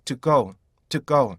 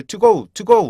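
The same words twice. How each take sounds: First: "to go" with a short stopped "to"; correct TO GO. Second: "to go" with a full "too", louder; wrong TO GO. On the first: Teacher shows how learners should say it, short "to" in "to go". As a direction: reduce "to" and land on "go". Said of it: "이렇게 하셔야지". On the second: Teacher shows the mistake, full-vowelled "to go". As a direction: sound "to" fully, then a long "go". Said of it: "하시면 안 돼요". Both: Shown as a demonstration.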